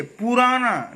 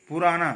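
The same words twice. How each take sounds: First: पुराना with a long poo; wrong pronunciation. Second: पुराना with a short pu; correct pronunciation. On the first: Teacher showing the slip, wrong pronunciation. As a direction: stretch the first vowel of पुराना. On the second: Teacher correcting the slip, correct pronunciation. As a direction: open पुराना on a brief u. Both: Shown as a demonstration. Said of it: "पुराना नहीं".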